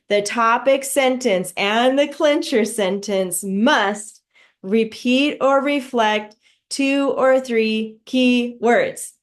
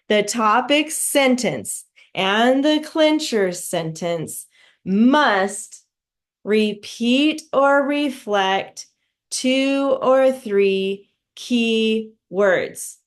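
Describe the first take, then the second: First: It is said at a faster speed. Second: It is said at a normal speed.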